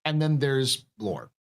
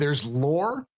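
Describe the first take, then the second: First: Slow, with "lore" falling; contrasting stress. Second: "lore" lifted on a rising tune; contrasting stress. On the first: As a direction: draw it out and let "lore" drop. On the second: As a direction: stress "lore" and leave it hanging upward. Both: Shown as a demonstration. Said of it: "there's two types of lore".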